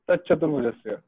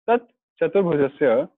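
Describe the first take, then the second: First: The whole phrase runs together without a stop. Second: There is a stop after the first word. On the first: "then it goes in one go" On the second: "first of all we have to stop here at the Tat"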